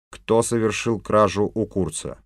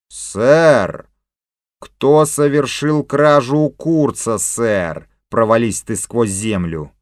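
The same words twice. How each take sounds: First: Said in the usual way. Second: Loud, slow indignant echo; angry mocking repeat. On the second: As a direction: throw the question back angrily. King mockingly repeats, curses chief.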